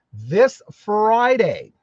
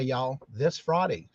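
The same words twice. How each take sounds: First: "this Friday" drawn out very slow and a bit louder, stretching "Friday"; stressed announcement. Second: "this Friday" said again slower and softer, falling off at "Friday"; softer repeat. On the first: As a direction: stretch out "this Friday" slowly for emphasis. Announcing Cheryl's birthday Friday. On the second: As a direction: repeat "this Friday" quietly, as an aside. Repeating the birthday date. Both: Real, not acted.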